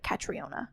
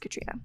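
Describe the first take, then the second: First: The name is said as Ca-tri-o-na. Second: The name is said as Ka-tree-na. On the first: The speaker calls it wrong. "Before I knew how to say it, I would always say like" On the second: The speaker calls it right. "oh wait, it's"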